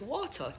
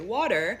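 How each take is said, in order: First: It is said in a Jamaican accent. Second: It is said in an American accent. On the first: "in Jamaica is water, W A T A" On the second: "here you say water"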